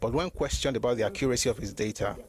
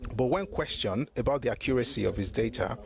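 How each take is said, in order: First: It is read at a normal pace. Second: It is read at a slow pace.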